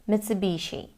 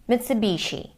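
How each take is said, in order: Both takes have the same delivery.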